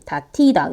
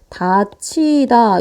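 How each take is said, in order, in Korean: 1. 가운데 자음은 거센 't' 소리예요. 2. 가운데 자음은 거센 'ch' 소리예요. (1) "뭔가 어눌하고 이상하지 않습니까?" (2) "그래서 다치다 이런 식으로 가는데요"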